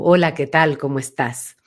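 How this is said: The voice resonates far back and sounds deep.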